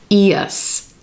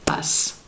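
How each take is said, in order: First: It is said as two syllables, ee-us. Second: It is said as one syllable, us. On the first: "So it becomes two syllables here" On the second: "as opposed to one syllable"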